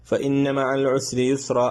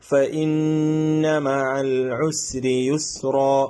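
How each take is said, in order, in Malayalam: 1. ഇരട്ടിച്ച നൂൻ മൂക്കിലെ ഹുമ്മില്ലാതെ ചുരുക്കി മുറിക്കുന്നു. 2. ഇരട്ടിച്ച നൂൻ മൂക്കിലെ ഹുമ്മോടെ പിടിച്ചു നിർത്തുന്നു. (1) "അങ്ങനെ ഓതാൻ പാടില്ല" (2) "ഉന്നത്ത് ചെയ്ത് മണിച്ച് ഓതി"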